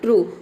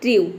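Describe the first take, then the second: First: The vowel is said with a plain 'oo' sound. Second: The vowel is said with a 'yoo' sound. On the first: The speaker calls it right. "फिर आपने ऊ रखा" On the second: The speaker calls it wrong. "पहले आपको यू रख के pronounce करना है"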